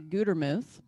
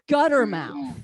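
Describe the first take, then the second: First: The last syllable is said as muth. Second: The last syllable is said as mouth. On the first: The speaker calls it right. "my last name is actually Gutermuth" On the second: The speaker calls it wrong. "they'll mispronounce it and they'll say gutter mouth"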